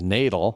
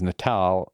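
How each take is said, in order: First: It is pronounced the English way. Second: It is pronounced the Indonesian way. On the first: It is the English word relating to birth. "the same word that we pronounce as natal" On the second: It is the Indonesian word for Christmas. "as you recognize Natal"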